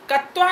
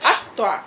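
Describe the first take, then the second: First: The word starts directly with a k sound. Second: The word starts with an a vowel before k. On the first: The speaker calls it wrong. "कत्वा नहीं" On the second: The speaker calls it right. "शुरू में अ अ का उच्चारण करो"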